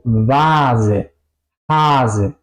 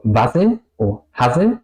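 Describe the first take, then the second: First: Long A, short S in "Vase, Hase"; vocal larga. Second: Short quick A in "Vase o Hase"; vocal corta. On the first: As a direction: stretch the A slowly in "Vase, Hase". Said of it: "La A larga". ("Vase, Hase" con a larga y ese corta) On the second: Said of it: "No digo". ("Vase o Hase" con a corta) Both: Shown as a demonstration.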